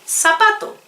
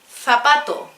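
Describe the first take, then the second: First: It is said with a South American accent. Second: It is said with a Spain Spanish accent. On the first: "we, the people who are in South America, for example, pronounce it" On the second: "Listen how a Spanish person, I mean, from Spain, a person from Spain, uh, pronounce"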